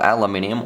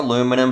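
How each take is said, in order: First: It has five syllables, British style. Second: It has four syllables, American style.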